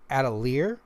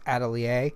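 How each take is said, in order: First: It is said with an English-style pronunciation. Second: It is said with a French-style pronunciation. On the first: The speaker calls it wrong. "I thought it was Atelier" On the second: The speaker calls it right. "French word pronounced Atelier"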